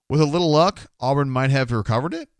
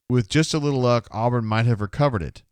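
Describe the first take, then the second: First: It is said as a question, rising at the end. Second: It is said as a statement, falling at the end.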